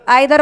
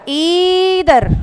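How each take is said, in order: First: The first vowel sounds like 'eye'. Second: The first vowel sounds like 'ee'. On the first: The speaker calls it wrong. "आई नाई की बजाय ई नी" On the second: The speaker calls it right. "आई नाई की बजाय ई नी"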